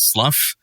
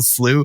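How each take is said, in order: First: The word is not pronounced like 'slew'. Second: The word is pronounced like 'slew'. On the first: To come off, as a snake's skin. "which for me is slough" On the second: A stagnant body of water. "how do you spell slew?"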